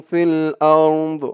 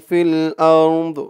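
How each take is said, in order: The two takes are said the same way.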